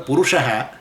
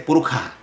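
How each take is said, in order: First: The middle consonant is an sh sound. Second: The middle consonant is a kh sound. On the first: "instead of a Purusha" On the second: "they pronounce it as a kh"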